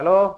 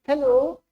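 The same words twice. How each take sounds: First: It is said in a low, boyish voice. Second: It is said in a high, girlish voice.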